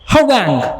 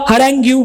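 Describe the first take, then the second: First: The word ends on the 'ng' sound. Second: The word ends with an added 'yoo' syllable. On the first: The speaker calls it right. "मग मी तसं केलं" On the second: The speaker calls it wrong. "आम्ही वाचताना पहिलं काय वाचलं?"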